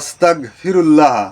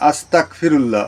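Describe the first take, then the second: First: The middle consonant is a throaty gh sound. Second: The middle consonant is a hard k sound. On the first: I ask God's forgiveness. The speaker calls it right. "এর উচ্চারণটা হবে আস্তাগফিরুল্লাহ, গয়ের মতন হবে উচ্চারণটা" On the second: I want to become an unbeliever. The speaker calls it wrong. "অনেকে বলে আস্তাগফিরুল্লাহ। কয়ের মতন হবে না"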